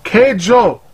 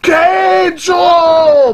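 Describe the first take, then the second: First: The title is said plainly, without extra energy. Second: The title is said loudly with excited energy.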